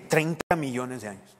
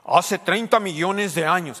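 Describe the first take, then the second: First: Lower, doubtful repeat of the figure; sceptical echo. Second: Slow, weighty documentary narration, a bit louder; a light imitation of a solemn documentary narrator. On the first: Real, not acted. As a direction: echo the number as if you don't buy it. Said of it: "ellos estuvieron ahí, ellos vieron". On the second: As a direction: announce it like a nature film voice-over. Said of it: "pero a veces dicen".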